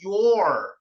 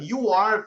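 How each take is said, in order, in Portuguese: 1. É dito como uma sílaba contraída. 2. É dito como duas palavras completas e separadas.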